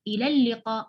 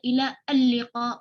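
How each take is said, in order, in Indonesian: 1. "Ila" langsung menyambung ke "l" tanpa jeda. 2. "Al" diucapkan sebagai suku kata tersendiri. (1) "kita baca ilal liqa" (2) "kita nggak baca ila al liqa"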